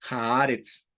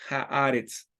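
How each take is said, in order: The two takes are said the same way.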